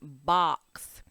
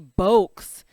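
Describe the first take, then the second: First: The vowel is a short 'ah' sound. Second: The vowel is a long O sound. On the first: The speaker calls it right. "So we did not hear O. We heard ah" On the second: The speaker calls it wrong. "We didn't hear O, because then that would be bokes"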